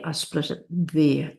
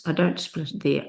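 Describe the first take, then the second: First: "there" leaned on as the right split; weight on "there", the rest light; stress on there. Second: "don't" leaned on, falling tune; weight on "don't", the rest light; stress on don't. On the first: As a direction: hit "there" as the right spot. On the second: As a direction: hit "don't" as the wrong split. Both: Shown as a demonstration.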